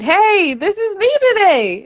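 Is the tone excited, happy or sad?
excited. It is said in an excited tone.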